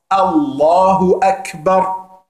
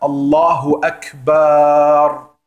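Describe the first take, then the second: First: The final vowel of Akbar is kept short. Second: The final vowel of Akbar is drawn out long. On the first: Allah is greater. The speaker calls it right. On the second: Allah is drums. The speaker calls it wrong. "am Ende es lang zu ziehen"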